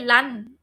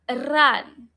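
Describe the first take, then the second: First: The starting R sound is light, not stressed. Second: The starting R sound is strongly stressed. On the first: The speaker calls it wrong. "We don't say run" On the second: The speaker calls it right. "We stress the R"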